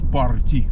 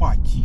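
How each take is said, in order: First: The word is said with an R sound. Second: The word is said without an R sound. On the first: This is the plain local way of saying it. "видят букву Р и говорят парти" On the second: This is the American way of saying it. "американцы говорят пати"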